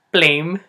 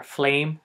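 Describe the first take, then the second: First: "flame" said loudly as "plame"; Filipino-accented "flame", as "plame". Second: Said in the usual way. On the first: Shown as a demonstration. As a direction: say "flame" with P for F, pitched up. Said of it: "There's no F sound". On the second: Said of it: "for example".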